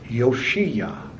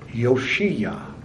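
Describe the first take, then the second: First: The name is said in its Hebrew form. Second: The name is said in its Hebrew form.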